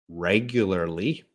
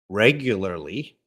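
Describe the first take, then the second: Both takes have the same delivery.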